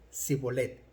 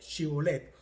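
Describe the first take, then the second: First: The word begins with an 's' sound. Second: The word begins with a 'sh' sound. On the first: This pronunciation marks the speaker as an Ephraimite. The speaker calls it wrong. "ellos decían sibolet" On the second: This is the standard pronunciation of the word. The speaker calls it right. "La shi a ellos no les salía y en lugar de shibolet"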